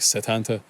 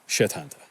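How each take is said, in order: First: The name begins with a plain S sound. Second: The name begins with an SH sound.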